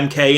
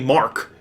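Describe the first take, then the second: First: It is read as two separate letters. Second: It is read as one whole word. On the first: The speaker calls it wrong. "I was pronouncing it M K" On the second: The speaker calls it right. "it's actually Mark"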